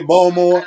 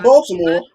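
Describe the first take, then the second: First: "Baltimore" squeezed to two syllables, BOL-more; local Baltimore pronunciation. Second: "Baltimore" in three syllables, BOL-tuh-more; standard Baltimore pronunciation. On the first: Explaining local talk, Baltimore said the Baltimore way. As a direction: swallow the middle of "Baltimore". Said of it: "We say Baltimore". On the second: Explaining what locals don't say, standard Baltimore. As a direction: sound the middle "t" in "Baltimore". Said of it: "not Baltimore". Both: Shown as a demonstration.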